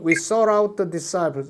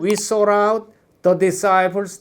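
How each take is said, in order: First: The phrase breaks after the word 'the'. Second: The phrase breaks before the word 'the'. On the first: The phrase is split by units of sound. The speaker calls it right. "실제로 발음을 하면 ... the까지" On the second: The phrase is split by units of meaning. The speaker calls it wrong. "의미처럼 그러면 ... 이렇게 떨어진다고"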